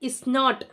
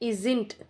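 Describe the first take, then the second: First: It is said as two full separate words. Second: It is said as one short contracted word. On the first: "இஸ் நாட்ன்றத isn't அப்படின்னு சொன்னோம்" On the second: "isn't அப்படின்னு சொன்னோம்"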